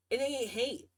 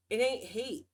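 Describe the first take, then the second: First: Said in the usual way. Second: Ain't leaned on as the key word; stress on ain't. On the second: Shown as a demonstration. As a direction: press on ain't to make the point.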